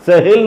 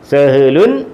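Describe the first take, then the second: First: The word ends on a bare final consonant. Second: The word ends with a nasal 'un' ending.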